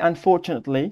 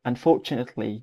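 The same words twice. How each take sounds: First: It is said with an American accent, with R. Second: It is said with a British accent, no R. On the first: "ដល់ពេលតាមបែប US គេបានមានអានបាទ unfortunately" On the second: "UK គឺគេអត់យកសំនៀង R ហ្នឹងទេ"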